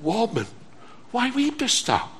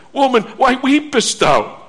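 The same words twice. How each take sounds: First: Soft and gentle, much quieter. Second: Said in the usual way. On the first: Acted. Angels asking weeping Mary, soft and gentle. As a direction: tenderly ask the weeping woman, hushed. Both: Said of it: "Possibly with a very gentle tone".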